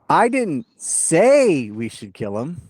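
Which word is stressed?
say. The word "say" carries the stress. It was done rather than said. "That means I just did it without saying it"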